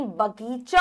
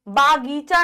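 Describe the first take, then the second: First: बगीचा as 'ba-geecha'; brief 'ba' before 'geecha' in बगीचा; correct short a. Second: बागीचा as 'baa-geecha'; wrong stretched 'baa' in बागीचा; mispronounced long aa. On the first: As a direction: say बगीचा with a short first vowel. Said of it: "बगीचा होता है". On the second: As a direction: say बागीचा with a long first vowel. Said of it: "बागीचा नहीं". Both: Shown as a demonstration.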